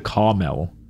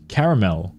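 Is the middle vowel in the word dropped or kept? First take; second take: dropped; kept. First: The middle vowel is dropped, giving two syllables. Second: The middle vowel is kept, giving three syllables. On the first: The speaker calls it wrong. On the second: The speaker calls it right.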